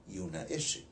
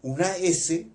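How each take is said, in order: First: "S" named with a hushing sh sound, "eshe". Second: Said in the usual way. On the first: Shown as a demonstration. Contrasting two old Quechua sibilants, "S" pronounced "eshe". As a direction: turn the hiss of "S" into sh. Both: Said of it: "dos S's que tenía antes".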